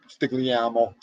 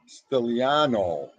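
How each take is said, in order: First: The G in the middle is pronounced. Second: The G in the middle is not pronounced. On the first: The speaker calls it wrong. "Did I say that right?" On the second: The speaker calls it right. "the G is silent"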